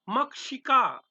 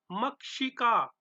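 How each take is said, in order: First: मक्षिका said clearly, mak-shi-ka, slightly raised; model pronunciation. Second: Said in the usual way. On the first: Shown as a demonstration. Teacher presenting मक्षिका to students, clear. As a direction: present मक्षिका crisply for repetition. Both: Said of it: "उच्चारण करते रहना".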